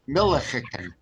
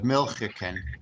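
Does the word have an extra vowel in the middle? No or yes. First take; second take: yes; no. First: An extra vowel is heard in the middle. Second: No extra vowel is heard in the middle. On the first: It marks a southern dialect speaker. "He says Millichicken" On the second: It is the usual non-southern form. "instead of Milchicken"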